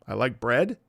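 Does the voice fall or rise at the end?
rise. The pitch rises at the end.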